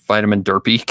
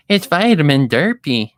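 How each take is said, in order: First: Said in the usual way. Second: Higher, louder, tongueless cartoon voice; loud, high goofy mispronouncing voice; Derpy impression. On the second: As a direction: talk thickly, as if you have no tongue. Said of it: "Derpy's easy".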